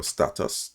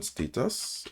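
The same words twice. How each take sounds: First: "status" with a short A, STAT-us; alternative pronunciation. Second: "status" with a long A, STAY-tus; alternative pronunciation. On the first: Instructor giving learners the other pronunciation, status as STAT-us. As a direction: say "status" as STAT-us, first vowel as in "cat". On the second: Instructor reading out a command offers one pronunciation, status as STAY-tus. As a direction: say "status" as STAY-tus, first vowel as in "state". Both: Shown as a demonstration. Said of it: "depending on how you pronounce it".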